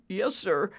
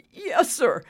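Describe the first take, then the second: First: Said in the usual way. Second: High, louder smug reply. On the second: A narrator's reading. Maintenance man leaving his rattled boss, smug. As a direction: answer smugly, pitched up. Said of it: "Dexter said smugly".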